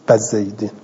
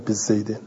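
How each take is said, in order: First: The first b takes an a vowel. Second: The first b takes an i vowel. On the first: "بعضی عرب با این باء فتح میدهند" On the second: "نه بزیدن"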